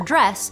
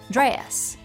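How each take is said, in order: First: The word has a single vowel sound. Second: The vowel stretches into two vowel sounds. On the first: This is the speaker's own dialect. "have a single vowel sound in my dialect" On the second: This is how it sounds in Southern English. "stretch out in Southern English to sound like two vowels"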